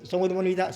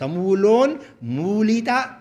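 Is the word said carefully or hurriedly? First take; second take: hurriedly; carefully. First: It is said quickly with the vowels rushed. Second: It is said slowly with both mū long. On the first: The speaker calls it wrong. "ઉતાવળમાં બોલો ... બંને ખોટા" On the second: The speaker calls it right. "બંને મૂ દીર્ઘ છે"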